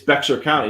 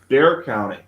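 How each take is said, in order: First: The first word is said with an x sound. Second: The first word sounds like 'bear', no x. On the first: The speaker calls it wrong. "people always say it's Bexar County" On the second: The speaker calls it right. "No, it's Bear County"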